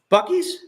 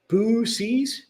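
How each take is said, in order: First: The name is said with a k sound. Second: The name is said without a k sound. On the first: The speaker calls it right. "You're putting a K in there?" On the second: The speaker calls it wrong. "Am I pronouncing that correctly?"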